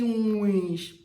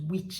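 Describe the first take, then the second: First: The vowel is long and drawn out. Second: The vowel is short and clipped. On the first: The speaker calls it right. "They draw it like you be witch" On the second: The speaker calls it wrong. "not witch"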